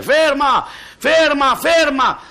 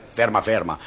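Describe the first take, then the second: First: Loud, high alarmed yell; baker's boy yelling at the old man to stop, high and loud; shouting. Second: Mocking repeat. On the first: Acted. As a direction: scream the warning to the old man. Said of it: "comincia a gridare". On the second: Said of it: "Cosa continuai a gridare".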